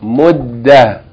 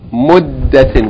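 First: The word ends in an 'h' with no vowel. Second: The word ends with a full '-tin' syllable. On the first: The reader stops on this word. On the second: The reading continues without stopping on the word.

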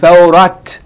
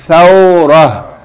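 First: The word ends with a clear t sound. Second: The word ends with a soft h sound. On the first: The speaker calls it wrong. "I hope I'm not hearing somebody saying thawrat" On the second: The speaker calls it right. "If we stop on it, we pronounce it? Like H"

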